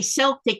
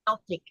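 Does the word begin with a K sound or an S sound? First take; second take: S sound; K sound. First: The word begins with an S sound. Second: The word begins with a K sound. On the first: The speaker calls it wrong. "I used to say Celtic, and someone said, no, you don't say it that way" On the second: The speaker calls it right. "I think you say it with that K sound"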